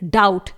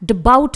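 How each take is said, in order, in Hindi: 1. t से पहले b की कोई आवाज़ सुनाई नहीं देती। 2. इस शब्द में b की आवाज़ सुनाई देती है। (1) "इट इज डाउट" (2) "इसे हम डबाउट नहीं पढ़ेंगे"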